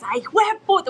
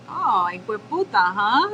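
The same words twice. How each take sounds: First: High, loud "hijo de puta" full of feeling; emotional cursing. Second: Hueputa as a knowing tease, lifted on "huh"; retold godmother catching out a swearer; godmother's reaction. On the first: Retold or imitated. Godmother who curses constantly, imitated with so much emotion. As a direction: imitate a huge curser's emphatic outburst. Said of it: "with, like, so much emotion". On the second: Godmother catching her goddaughter swearing, retold reaction. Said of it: "She looked over at me and was like".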